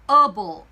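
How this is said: It is said in an American accent. "미국 영어에서는"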